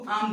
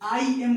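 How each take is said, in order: First: The words are merged into one short word. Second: The two words are said fully and separately.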